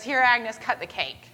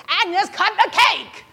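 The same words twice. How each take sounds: First: Said in the usual way. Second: High, loud, drawn-out shout; impatient yell. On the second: Retold or imitated. Harry repeats himself to hesitating Agnes, impatient yell. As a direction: bellow the order word by word.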